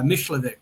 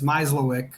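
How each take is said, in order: First: The surname is said with Polish sounds. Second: The surname is said with English sounds. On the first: "in Polish, it'd be Myślewik" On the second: "in English, it's Myslowick"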